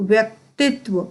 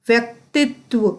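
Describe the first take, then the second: Both takes have the same delivery.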